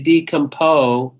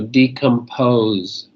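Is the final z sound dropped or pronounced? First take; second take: dropped; pronounced. First: The final z sound is left off. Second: The final z sound is clearly pronounced. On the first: The speaker calls it wrong. "if you just say decompose, um, I don't know what you're saying because that's not a word" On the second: The speaker calls it right. "make sure you say the ending sound"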